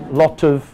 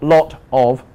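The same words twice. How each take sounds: First: The word 'of' is weak and reduced. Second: The word 'of' is strong and fully pronounced. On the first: The speaker calls it right. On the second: The speaker calls it wrong.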